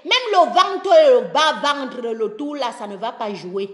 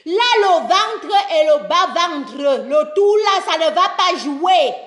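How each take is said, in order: First: Said in the usual way. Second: "le ventre et le bas-ventre" hammered out, held up to "jouer"; emphatic repetition. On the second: Real, not acted. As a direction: drive home each phrase through "ça ne va pas jouer", without dropping away. Repeats after asking if understood.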